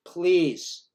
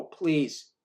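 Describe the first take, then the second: First: Louder urgent please; an urgent mock plea. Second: Quieter, gentler please; a softer second plea. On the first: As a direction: beg him to stop, loud. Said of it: "So I go to the guy". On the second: Retold or imitated. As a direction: ask again more softly. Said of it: "I go".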